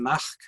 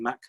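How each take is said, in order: First: A breathy h sound comes before the final k. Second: The final k comes without a breathy h sound. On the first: "we find it in Mach for sun" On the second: "rather than Mac"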